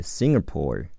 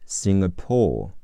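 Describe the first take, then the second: First: "Singapore" in American style, the g running smoothly into the vowel; American pronunciation. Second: Said in the usual way. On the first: Shown as a demonstration. Teacher modelling for the class, American pronunciation of "Singapore". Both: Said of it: "美式发音是".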